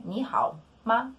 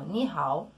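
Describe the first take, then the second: First: Ni hao followed by a separate neutral ma; question with particle. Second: Ni hao as a simple greeting without ma; statement, not question. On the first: Teacher asks learners if they are well, neutral particle question. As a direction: set ma after Ni hao as a question marker. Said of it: "eu tô perguntando". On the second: Teacher shows a simple greeting, not asking. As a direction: say ni hao as a plain hello. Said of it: "eu não tô perguntando". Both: Shown as a demonstration.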